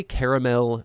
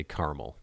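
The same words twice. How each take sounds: First: "caramel" in three full syllables; overpronounced caramel. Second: "caramel" in two syllables, CAR-mul; childhood pronunciation. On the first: Showing how they say it now, overpronounced caramel. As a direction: say "caramel" fully, with the middle vowel sounded. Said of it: "tendency to overpronounce things". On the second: Recalling how they said it growing up, two-syllable caramel. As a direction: say "caramel" as CAR-mul, middle vowel dropped. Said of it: "when I was growing up". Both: Shown as a demonstration.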